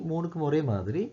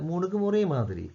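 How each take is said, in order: Both takes have the same delivery.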